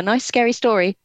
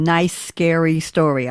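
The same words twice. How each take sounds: First: Lifted pitch on "nice, scary story"; "nice" and "scary" raised, lightly relished; stress on NICE and SCARY. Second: "nice" drawn out slowly, then "scary story"; slow quote, lingering on "nice"; quoting stress on NICE. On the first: Real, not acted. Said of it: "I like the way you said". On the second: Retold or imitated. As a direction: echo it slowly, weight on "nice". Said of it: "the way you said".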